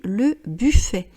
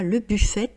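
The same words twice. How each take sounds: First: The final T is silent. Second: The final T is pronounced. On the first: The speaker calls it right. "on dit le buffet" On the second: The speaker calls it wrong. "on ne dit pas le buffet"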